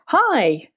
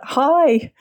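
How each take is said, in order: First: Put-on high, bright child's "Hi!" called out; toddler's happy shout. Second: Put-on high, ringing toddler "Hi!"; ringing child's call. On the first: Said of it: "screamed out". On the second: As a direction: let "Hi!" ring out like a small child. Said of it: "this little one's voice ring out".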